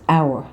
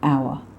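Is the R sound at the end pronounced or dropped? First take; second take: pronounced; dropped. First: The R sound is clearly pronounced. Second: The R sound is dropped. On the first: The speaker calls it right. "it's hour" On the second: The speaker calls it wrong. "not hour"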